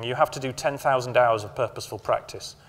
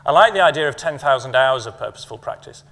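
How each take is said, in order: First: Said in the usual way. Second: Purposeful pressed a little louder; stress on purposeful. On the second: Shown as a demonstration. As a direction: lean on the word purposeful. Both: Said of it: "stress the word purposeful".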